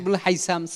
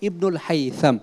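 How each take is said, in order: First: The name is said with a plain s sound. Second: The name is said with a th sound. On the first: The speaker calls it wrong. "সবাই বলতেছে সা দিয়ে" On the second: The speaker calls it right. "বিশুদ্ধ উচ্চারণ করব"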